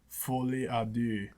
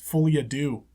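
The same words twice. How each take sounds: First: It is said with a French-style pronunciation. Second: It is said with an English-style pronunciation. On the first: "I don't know that this is actually how you say it in French, but it's something like" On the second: "no one's gonna bother saying that"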